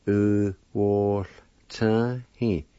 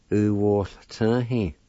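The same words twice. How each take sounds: First: U wall turn he said as one phrase; joined demo. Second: U wall turn he drawn out slowly; slower demo. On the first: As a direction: link the sounds into one phrase. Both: Shown as a demonstration. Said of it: "like this".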